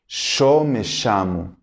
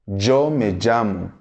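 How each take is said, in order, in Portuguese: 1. O ll é pronunciado como o som sh. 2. O ll é pronunciado como o som zh.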